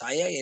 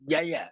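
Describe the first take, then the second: First: The word begins with an s sound. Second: The word begins with a j sound. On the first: This is the form used in Tamil. "தமிழ்ல சய சய என்றுதான் சொல்லுகிறார்கள்" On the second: This is the original form of the word. "உண்மையா சய என்பது ஜெய"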